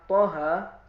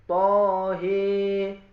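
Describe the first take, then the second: First: The final vowel is an open a. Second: The final vowel leans toward e.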